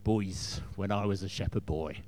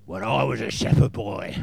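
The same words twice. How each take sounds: First: Put-on low, gruff, monotone old king; lightly voiced gruff warrior king. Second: Loud gruff booming king; gruff shout. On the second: Retold or imitated. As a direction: boom it out like a gruff warrior. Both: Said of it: "with a sort of monotone, gruff voice".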